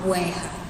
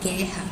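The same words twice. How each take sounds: First: A 'w' sound follows the g. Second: No 'w' sound follows the g. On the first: The speaker calls it wrong. "A gente não fala" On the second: The speaker calls it right. "a gente não pronuncia também o U aqui"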